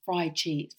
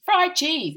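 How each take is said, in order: First: Said in the usual way. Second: "fried cheese" said high and loud; emphatic repeat. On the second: Real, not acted. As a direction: punch "fried cheese" higher.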